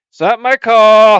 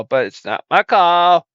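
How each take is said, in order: First: Louder, higher protest; frustrated outburst. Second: Said in the usual way. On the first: Acted. Host loudly protesting he has no say over the name. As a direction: vent the grievance loudly. Complaining about show name.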